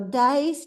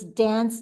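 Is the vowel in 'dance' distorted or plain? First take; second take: distorted; plain. First: The vowel is changed to sound like 'dice'. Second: The word is said with its usual vowel. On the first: "instead they go dice" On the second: "there's a song that says it has the words dance"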